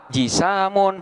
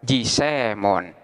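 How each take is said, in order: First: The long vowel is a plain open 'a'. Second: The long vowel leans toward an 'e' sound.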